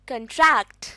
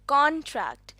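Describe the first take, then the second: First: The stress is on the second syllable. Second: The stress is on the first syllable. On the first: To shrink or become smaller. "अगर हम दूसरे syllable पर stress देंगे तो ये बन जाएगा contract" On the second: A written agreement that is signed. "पहले सिलेबल पर"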